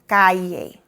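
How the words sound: The double L sounds like an English y. The speaker is from Mexico or Spain. "If you are in Mexico or Spain, ... A slight Y sound"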